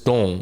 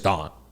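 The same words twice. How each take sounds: First: The name is pronounced the Mandarin way. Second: The name is pronounced the English way. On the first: "you don't pronounce that in Mandarin. It's Dong" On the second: "But in English, it's Dong"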